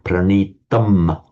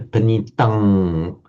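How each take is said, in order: First: The word ends with a full m sound. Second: The word ends with an ng sound. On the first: "with a full M sound" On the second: "comes out as an ung sound"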